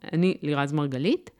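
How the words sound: The voice rises at the end like a question. The speaker seems to ask approval for her own identity. The speaker calls it wrong. "הטונציה עולה במקום שאמורה להיות הצהרה"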